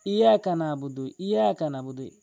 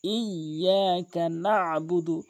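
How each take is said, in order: First: ইয়াকা with a single ইয়া, no তাসদিদ; wrong Iyyaka. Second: ইয়াকা slow with a doubled ইয়া; correct Iyyaka. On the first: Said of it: "মারাত্মক লেভেলের ভুলটি". (ভুল, তাসদিদ ছাড়া) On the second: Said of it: "ইয়াতে তাসদিদ রয়েছে". (শুদ্ধ, তাসদিদসহ ধীরে) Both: Shown as a demonstration.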